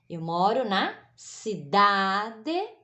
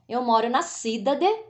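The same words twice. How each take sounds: First: Cidade is stressed on its middle syllable. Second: Cidade is stressed off its middle syllable. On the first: The speaker calls it right. "É o da" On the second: The speaker calls it wrong. "Não"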